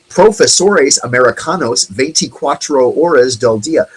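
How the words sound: It is spoken with an American English accent. The speaker calls it wrong.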